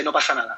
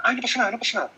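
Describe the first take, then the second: First: Said in the usual way. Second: Higher, hurried reassurance like a worried parent; mock anxious parent soothing a crying child; anxious rushed comfort. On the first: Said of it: "Pero como muy rápido". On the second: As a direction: rush the comfort, a touch anxious. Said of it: "Muy ansioso".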